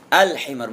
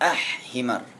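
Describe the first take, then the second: First: The L sound is pronounced clearly before H. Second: The L sound is dropped before H. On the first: The speaker calls it right. "Al-himar bukan ah-himar cara bacanya" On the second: The speaker calls it wrong. "bukan ah-himar"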